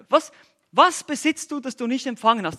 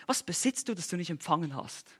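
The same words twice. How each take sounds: First: Higher, louder repeat of the question; emphatic challenge. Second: Sarcastic question. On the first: Acted. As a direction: drive the question home. (nachdrücklich und lauter wiederholt) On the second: Retold or imitated. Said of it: "er stellt ihnen diese sarkastische Frage".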